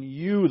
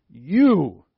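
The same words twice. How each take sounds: First: Said in the usual way. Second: "You," punched much louder and held; stress on You. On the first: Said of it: "the pronoun". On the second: Shown as a demonstration. Preacher stressing "You," as God addresses Jesus. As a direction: hit "You," hard to show the Greek emphasis. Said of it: "it emphasizes it".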